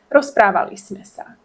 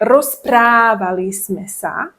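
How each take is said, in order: First: It is said quickly with relaxed, natural articulation. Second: It is said slowly with exaggerated, careful articulation. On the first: The speaker calls it right. "We say" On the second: The speaker calls it wrong. "I exaggerate the pronunciation ... we don't talk like"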